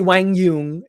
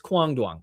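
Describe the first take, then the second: First: The name is said with a Vietnamese pronunciation. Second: The name is said with an Americanized pronunciation. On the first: "if you're Vietnamese" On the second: "the American pronunciation is Kwang Duong"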